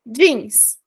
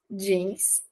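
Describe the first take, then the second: First: "Jeans" in English, a clean d-sound opening and a falling tune; English pronunciation. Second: "jeans" said the Brazilian way as "djins", softer and quieter; Brazilian Portuguese pronunciation. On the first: Teacher modeling "Jeans" for Brazilian students in crisp English. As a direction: say "Jeans" the American way with the vowel held long. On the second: Teacher giving the Brazilian loanword "jeans" as a softer, quieter Portuguese echo. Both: Shown as a demonstration.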